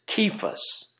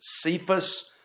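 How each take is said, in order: First: The name begins with a hard K sound. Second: The name begins with a soft S sound. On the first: This follows the word's original source. The speaker calls it right. "I think it's Cephas, actually, with a hard K" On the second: This is how most people usually say it. The speaker calls it wrong. "we usually pronounce this Cephas"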